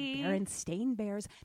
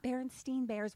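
First: The second part is pronounced like 'stain'. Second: The second part is pronounced like 'steen'. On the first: It is sounded out the way it is spelled. "you would have said Berenstain Bears" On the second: It is said the way it was remembered being spelled. "which is how you say it because it was spelled differently"

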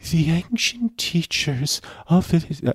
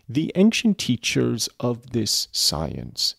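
First: It is said in an exaggerated put-on voice. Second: It is said in the reader's natural voice.

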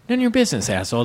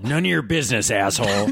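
First: It is said like an angry insult. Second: It is said with a restaurant name inflection.

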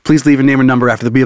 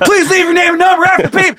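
First: It is said in a calm, professional tone. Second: It is said in an overly aggressive tone.

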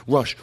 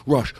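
Both takes have the same delivery.

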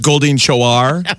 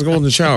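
First: The name is said with odd, stretched emphasis. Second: The name is said plainly, as it is spelled. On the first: The name is made to sound fancy to avoid the joke. "putting weird emphasis on it" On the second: The name is read as it is written. "Phonetically, it says Golden Shower"

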